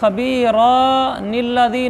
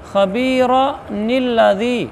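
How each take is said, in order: First: The vowel after the r is drawn out long. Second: The vowel after the r is kept short. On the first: The speaker calls it wrong. "नहीं पढ़ना, रा के आगे अलिफ नहीं पढ़नी" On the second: The speaker calls it right. "जब छोटी नून को अगले के साथ मिलाकर पढ़ेंगे तो यूँ पढ़ेंगे"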